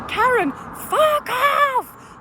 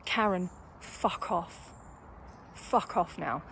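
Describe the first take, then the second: First: High, drawn-out furious shout; scream. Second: Low, slow, soft dismissal; restrained retold dismissal. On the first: Retold or imitated. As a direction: re-enact screaming someone away, stretching the words. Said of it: "And I just screamed it". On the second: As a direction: retell it quietly, dropping the voice well down. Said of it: "I finally had to say".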